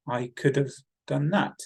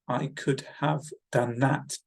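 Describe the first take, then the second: First: The word "have" is reduced to sound like "of". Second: The word "have" is said in full. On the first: "When we abbreviate the words, it sounds different" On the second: "The correct grammatical structure is"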